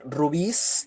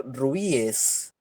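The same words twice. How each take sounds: First: "rubís" with stressed final -bís; plural in S. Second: "rubíes" with stressed I, then separate -es; plural in ES. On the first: Teacher showing one accepted plural, "rubís" ending in stressed -bís. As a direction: say "rubís" in two syllables, S straight after stressed I. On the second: Teacher showing the other accepted plural, "rubíes" ending in a separate -es. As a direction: say "rubíes" in three syllables, ru-bí-es. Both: Shown as a demonstration. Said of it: "los que admiten S y E S".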